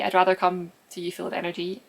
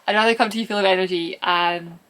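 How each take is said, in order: First: It is said in a flat, drab voice. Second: It is said in a lively, energetic voice.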